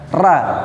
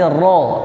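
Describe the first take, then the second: First: The vowel sounds like an open 'a'. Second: The vowel sounds like a rounded 'o'. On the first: The speaker calls it wrong. "bukan dibaca ra" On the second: The speaker calls it right. "tapi ro ya"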